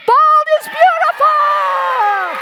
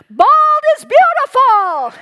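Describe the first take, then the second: First: High, slow, loud rallying shout; proud shout. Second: Ringing, high, loud proclamation; bold declaration. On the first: Real, not acted. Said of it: "share with you one more time". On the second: Retold or imitated. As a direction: declare it boldly to the room. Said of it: "declare as boldly and courageously as I could".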